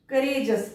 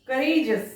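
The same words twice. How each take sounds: The two takes are said the same way.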